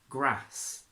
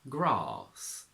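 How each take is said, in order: First: It has a short flat 'a' vowel. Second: It has a long 'ah' vowel. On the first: "the R turns into a A" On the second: "a long R in R P"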